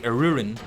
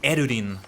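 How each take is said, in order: First: The name is said with English-style pronunciation. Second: The name is said with Japanese-style pronunciation. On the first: This is how English speakers would say it. "All of them would say" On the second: This might be more fitting for the name. "like more Elvish, more Japanese even"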